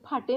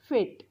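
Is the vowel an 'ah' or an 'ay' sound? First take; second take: ah; ay. First: The vowel is an 'ah' sound, with a final 'e'. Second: The vowel is an 'ay' sound, no final vowel. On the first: The speaker calls it wrong. "आपण फाटे नाही बोलत" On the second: The speaker calls it right. "इथं काय बोलतो आपण फेट"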